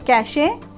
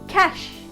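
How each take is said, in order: First: It ends with an 'ay' sound. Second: It ends with a 'sh' sound. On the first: The speaker calls it wrong. "So cache? No" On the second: The speaker calls it right. "The correct pronunciation will be cash"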